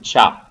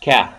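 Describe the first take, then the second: First: It begins with a ch sound. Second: It begins with a k sound. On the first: The speaker calls it wrong. "we don't pronounce it cha" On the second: The speaker calls it right. "we pronounced it uh, as ka"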